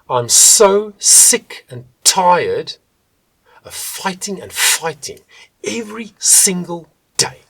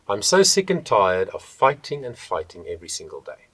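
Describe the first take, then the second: First: The S, F and T get extra breath. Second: The consonants are said plainly, without extra breath.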